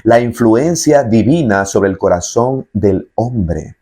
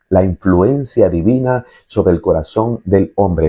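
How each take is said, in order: First: Slow, weighty "influencia divina"; slow emphatic definition. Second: Said in the usual way. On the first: Shown as a demonstration. Preacher defining grace slowly so listeners remember. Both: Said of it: "escuche bien lo que es la gracia".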